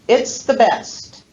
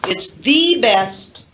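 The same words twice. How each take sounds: First: 'The' is said with a reduced schwa vowel. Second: 'The' is said with a full 'ee' vowel. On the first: It is an ordinary statement without special emphasis. "The normal sentence is probably the second one" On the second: The speaker is strongly emphasizing that it is the best. "the citation form, which contains the full vowel E"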